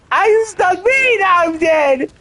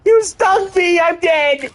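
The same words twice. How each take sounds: First: Even higher yelp of outrage; high outcry. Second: Yelping high in mock outrage; high outcry. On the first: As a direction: squeal it again, more upset. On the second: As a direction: squeal it out, stung and dying. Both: Real, not acted. Dying in game, crying out.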